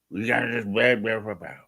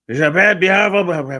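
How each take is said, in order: First: Said in the usual way. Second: Louder, higher, hammed-up "big, beautiful bear"; mocking bellow of a slogan; mock rally cry. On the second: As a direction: belt out "beautiful" like a mocking crowd-pleaser.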